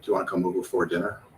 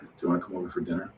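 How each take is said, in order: First: The word 'for' is said fully and clearly. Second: The word 'for' is reduced to a weak sound. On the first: The speaker calls it wrong. "if we pronounce it with the strong form, it sounds really weird" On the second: The speaker calls it right. "what's actually pronounced is not for, it's f"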